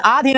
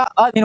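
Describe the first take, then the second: First: आधीन opened on aa; long first vowel. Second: अधीन opened on brief a; short first vowel. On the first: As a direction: stretch the start of आधीन. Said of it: "नहीं होता". (आधीन, लंबा आ) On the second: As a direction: keep the start of अधीन short. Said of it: "होता है". (अधीन, छोटा अ) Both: Shown as a demonstration.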